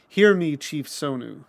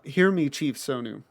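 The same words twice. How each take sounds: First: It is said in a strong, booming voice. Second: It is said in a softer, plain voice.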